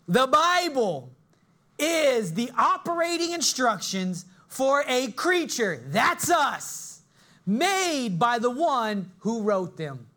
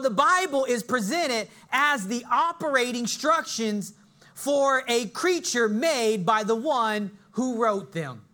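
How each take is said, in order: First: It is said more slowly. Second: It is said at a normal pace.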